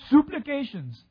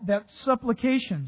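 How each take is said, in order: First: It is said in an imitated, different pronunciation. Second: It is said in the speaker's usual pronunciation.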